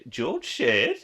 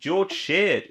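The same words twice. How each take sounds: First: Sheard? rising like a question; questioning rise. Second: Said in the usual way. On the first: Shown as a demonstration. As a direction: ask "Sheard?" with an unsure rising tune.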